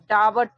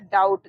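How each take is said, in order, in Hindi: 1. स्वर बँटा हुआ है, अंत से पहले एक w है। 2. स्वर ah से oo तक सहजता से फिसलता है। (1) "जो बच्चे पढ़ नहीं पाते हैं वो लोग यहाँ पर पढ़ देंगे" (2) "इसको हम लोग पढ़ना है डाउट"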